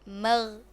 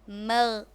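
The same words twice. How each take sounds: No difference in how they are said.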